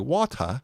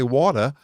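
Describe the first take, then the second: First: It is said in an English accent. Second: It is said in an Australian accent.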